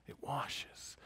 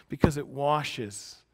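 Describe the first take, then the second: First: Washes breathed in a soft whisper. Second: Washes drawn out slowly; slow emphasis. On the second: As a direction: lean slowly into washes, giving the word weight. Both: Shown as a demonstration. Repeating washes, then whispering.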